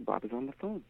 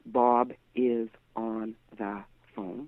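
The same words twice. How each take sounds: First: The words are contracted into one sound unit. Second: Each word is said fully and separately. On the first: The speaker calls it right. "We say, ... We speak in sound units" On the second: The speaker calls it wrong. "We don't say"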